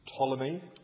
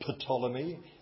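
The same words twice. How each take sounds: First: The word begins with a silent P. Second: The word begins with a sounded P. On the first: The speaker calls it right. "The P is silent" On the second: The speaker calls it wrong. "It's not Ptolemy"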